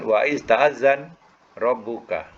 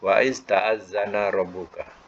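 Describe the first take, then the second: First: The verb ends on a bare 'n' consonant. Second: The verb ends with a short 'a' vowel. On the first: It becomes a command. The speaker calls it wrong. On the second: It is a past-tense statement. The speaker calls it right. "jadi ikutkan baris fathah yaitu madi"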